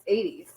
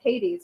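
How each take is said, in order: First: It begins with no h sound. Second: It begins with an h sound. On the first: This is the way it is said in Greece. "you don't pronounce the H's. It's eighties" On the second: This is the usual American way. "we wouldn't pronounce that with an H"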